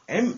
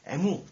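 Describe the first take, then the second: First: The letter ends on a plain m sound. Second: The letter ends with an added u vowel. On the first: This is the English way that was never taught. The speaker calls it right. "M 이렇게 배운 적이 없어요" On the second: This is the Japanese-style way that was taught. The speaker calls it wrong. "일본식으로 배웠어요"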